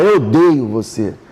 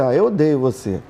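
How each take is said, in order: First: It sounds serious and truly meant. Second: It sounds light and playful, not meant.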